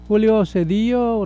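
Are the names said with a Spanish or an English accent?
Spanish. The names are said with a Spanish accent.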